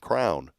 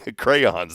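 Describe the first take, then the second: First: The word is said the local, regional way. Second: The word is said the standard, general way. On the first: The speaker calls it wrong. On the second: The speaker calls it right.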